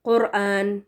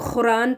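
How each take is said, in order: First: The first sound is a deep, closed k stop. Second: The first sound is a raspy, scraping kh fricative. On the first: The speaker calls it right. "इसको क़ाफ़ से पढ़ना चाहिए" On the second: The speaker calls it wrong. "इसको ख़ुरान पढ़ना तो ये भी गलत है"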